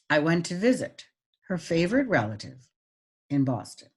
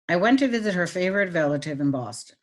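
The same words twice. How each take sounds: First: It is read with pauses but little pitch change. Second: It is read flatly, with no pauses or pitch changes. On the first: "Now the pauses" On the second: "I'm going to read it with no meaning"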